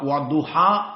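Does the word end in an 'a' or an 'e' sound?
a. The word ends in a plain 'a' sound.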